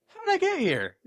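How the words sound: It is said in a pleased, positive tone. Things turned out well. "ideally, it's in a good"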